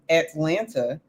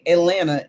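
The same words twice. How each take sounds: First: Every letter, including the second t, is sounded. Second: The second t sound is dropped. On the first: "pronouncing all the letters that are in the words"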